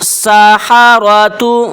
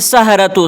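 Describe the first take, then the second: First: A short a vowel follows the h. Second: The h runs straight into the r. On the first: The speaker calls it right. "हा के ऊपर ज़बर है" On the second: The speaker calls it wrong. "इसको भी गलत पढ़ते हैं"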